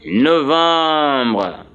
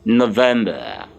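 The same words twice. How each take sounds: First: November drawn out as French no-vahm-bruh; slow November with nasal "vahm" in the middle; French pronunciation. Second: November said the English way, no-VEM-ber, lower and falling; English pronunciation. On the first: Teacher models the word before translating, November said the French way. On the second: Teacher answers what it is in English, November as no-VEM-ber. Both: Shown as a demonstration. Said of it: "what is November in English".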